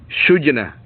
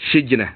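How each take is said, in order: First: The first vowel is a u sound. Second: The first vowel is an i sound. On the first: "bi dhammi awwalihi" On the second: "dibaca dengan kasrahnya"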